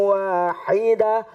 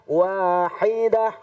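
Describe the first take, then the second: No difference in how they are said.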